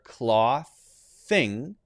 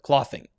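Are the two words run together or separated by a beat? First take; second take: separated; run together. First: A short beat separates the two words. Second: The two words run together without a beat. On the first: The speaker calls it right. "I'm leaving the T H sound in place between the two" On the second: The speaker calls it wrong. "instead of clothing"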